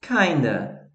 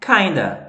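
First: "Kinda" said softly as /kadɐ/, run together; soft model pronunciation. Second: "Kinda" said as /kajndɐ/, run together; teacher modelling "Kinda"; model pronunciation. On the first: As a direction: quietly model "Kinda" again. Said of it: "Aí fica kinda". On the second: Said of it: "pode ser dito kinda". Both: Shown as a demonstration.

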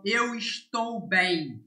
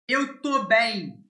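First: Said in the usual way. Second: TÔ as one syllable, without the "es"; spoken short form. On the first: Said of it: "instead of". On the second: Shown as a demonstration. Teacher showing learners how Brazilians say it, spoken short form "tô". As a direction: clip "estou" down to "tô". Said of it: "this is how the Brazilian say this verb".

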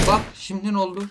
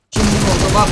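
First: Said in the usual way. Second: Loud triumph. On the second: Real, not acted.

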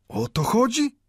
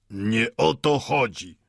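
First: High-pitched, incredulous question; questioning echo. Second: Slow, grandly weighted words; pompous pathos. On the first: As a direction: toss the words back as a high question. Mendel echoes the watchmaker, questioning. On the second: Watchmaker corrects old Mendel, pompous. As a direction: draw it out with self-important solemnity. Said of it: "rzekł patetycznie zegarmistrz". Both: A narrator's reading.

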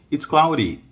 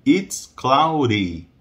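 First: Quick, linked "It's cloudy"; conversational pace, raised pitch; natural speed. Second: Very slow "It's cloudy"; drawn-out teaching delivery; slow model. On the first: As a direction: say "cloudy" briskly as clau-ree. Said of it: "é como eles falam". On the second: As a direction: stretch each word for learners. Teacher slows the same phrase. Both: Shown as a demonstration.

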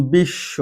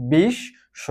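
First: বিশ্ব with a long doubled sh, "bish-sho"; doubled consonant. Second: বিশ্ব broken as "bish ... sho", higher pitched; split doubled consonant. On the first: Teacher giving an example of doubling, বিশ্ব as "bish-sho". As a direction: hold the sh in বিশ্ব and drop the b. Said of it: "তাকে দ্বিত্ব করে দিবে". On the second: Teacher answering how it is pronounced, বিশ্ব split as "bish, sho". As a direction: sound out বিশ্ব in two parts, sh in both. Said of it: "উচ্চারণ কি হচ্ছে?". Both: Shown as a demonstration.

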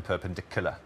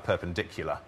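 First: "perpendicular" without the y, as "perpendic-oo-lar"; yod dropping. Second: Said in the usual way. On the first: Shown as a demonstration. Linguist demonstrating Welsh English, "perpendicular" said "perpendicooler". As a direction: drop the y in "perpendicular": "-kooler". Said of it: "you drop your yods all the time". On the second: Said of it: "So that y is missing in perpendicular".

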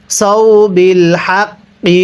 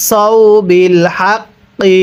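The two takes are said the same way.

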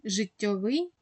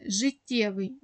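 First: Життєвий said with о, zhyt-TYO-vyi. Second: Життєвий said with a clear е, zhyt-TYE-vyi. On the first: Teacher models the о form of життєвий. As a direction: read життєвий as життьовий, with о after the doubled т. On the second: Teacher models the е form of життєвий. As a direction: read життєвий with е after the doubled т. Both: Shown as a demonstration. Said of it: "окремі прикметники мають паралельні форми".

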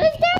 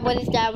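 First: Much higher, rising and louder; a high rising yelp of surprise; surprised squeak. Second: Said in the usual way. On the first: Real, not acted. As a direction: squeak it out in disbelief. Repeating the question, then squeaks.

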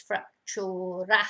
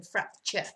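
First: "fractura" said the Spanish way, ending in "too-rah"; Spanish pronunciation. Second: Said in the usual way. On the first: Shown as a demonstration. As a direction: sound out "fractura" in three syllables, frac-TU-ra. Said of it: "very similar to the English, but it's fractura rather than fracture". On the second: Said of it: "rather than fracture".

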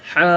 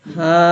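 First: "হা" squeezed from the middle of the throat; pressed mid-throat sound. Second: "হা" as an easy h from the bottom of the throat; easy throat-bottom sound. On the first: Teacher showing the throat letter, pressed "হা". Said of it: "মধ্যখান হতে আওয়াজ চাপ দিয়ে". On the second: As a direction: let "হা" out long without pressure. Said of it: "হলকে শুরু হতে সহজে আওয়াজ". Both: Shown as a demonstration.

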